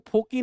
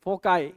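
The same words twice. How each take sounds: First: "फोकी" ending in a long ee; wrong pronunciation. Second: "फोकाई" ending in an eye sound; correct plural pronunciation. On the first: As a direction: say "फोकी" with a final -kee. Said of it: "इसको फोकी नहीं पढ़ेंगे". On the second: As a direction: say "फोकाई" with a final -kai. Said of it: "क्या पढ़ेंगे". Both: Shown as a demonstration.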